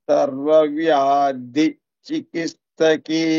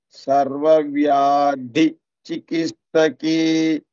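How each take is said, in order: No difference in how they are said.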